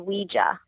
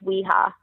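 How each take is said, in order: First: The word is pronounced the English way. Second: The word is pronounced the Spanish way. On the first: This is how most other people say it. "for most other people, it would be Ouija" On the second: This is how Spanish speakers say it.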